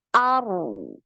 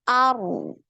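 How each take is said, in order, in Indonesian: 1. Bunyi r tetap mengalir keluar. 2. Bunyi r tetap mengalir keluar.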